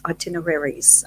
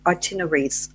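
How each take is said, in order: First: Itineraries in full, "eye-TIN-er-air-eez"; full-length itineraries. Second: Itineraries with a syllable dropped, "eye-TIN-er-eez"; shortened itineraries. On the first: Confused speaker tries itineraries another way, full pronunciation. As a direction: sound out every syllable of itineraries. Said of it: "I always get confused". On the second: Unsure speaker tries itineraries aloud, shortened pronunciation. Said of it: "Do I say itineraries?". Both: Shown as a demonstration.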